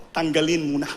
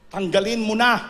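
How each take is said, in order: First: Said in the usual way. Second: "Tanggalin mo na" said louder, insisting hard; emphatic command. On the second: Acted. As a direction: press the command home to the congregation. Preacher repeats command louder. (mariing utos na "Tanggalin mo na")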